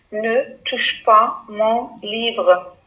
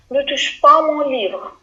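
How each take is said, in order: First: "Ne touche pas mon livre" read slowly and evenly. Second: "Ne touche pas mon livre" said firmly, a touch higher; a sharp order to a child; stern don't-touch; firm command. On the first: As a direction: spell it out slowly for the class. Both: Shown as a demonstration. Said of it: "Regardez bien le verbe".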